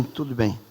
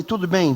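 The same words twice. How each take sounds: First: Dropping low and soft to reassure; soft reassurance. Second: Said in the usual way. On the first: Retold or imitated. Pastor quietly reassuring the young husband, soft and low. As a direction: settle him down, much softer.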